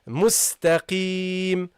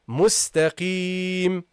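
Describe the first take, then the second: The two takes are said the same way.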